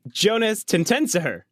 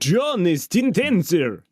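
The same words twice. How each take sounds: First: It is said in a plain, normal voice. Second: It is said in a put-on Dracula voice.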